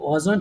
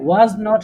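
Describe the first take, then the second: First: The two words are joined into one short word. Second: Two separate words, was and not, are said. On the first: "একসঙ্গে wasn't বলে" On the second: "was not কে"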